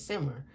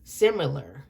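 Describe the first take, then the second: First: "similar" slurred, its middle swallowed; slurred slip. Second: "Similar" said fully, every syllable sounded; corrected word. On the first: Reader stumbling on a word in a reading, slurred "similar". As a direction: run "similar" together, losing a syllable. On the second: Reader correcting a slip for viewers, careful "Similar". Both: Real, not acted. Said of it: "I'm sorry".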